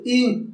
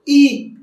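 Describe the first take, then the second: First: "I" short and understated; weakly pronounced vowel. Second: "I" lifted, held and projected; fully voiced vowel. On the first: Coach shows how not to vocalize, a weak short "I". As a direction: say "I" small, without projecting it. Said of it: "practicar la pronunciación de las vocales". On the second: Coach shows correct vocalization, a full held "I". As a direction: give "I" its full, sustained sound. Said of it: "se dice I". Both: Shown as a demonstration.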